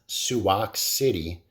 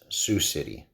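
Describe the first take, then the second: First: The first word is said as two syllables. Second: The first word is said as one syllable. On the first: The speaker calls it wrong. "came up with a new pronunciation" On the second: The speaker calls it right. "it's Sioux City"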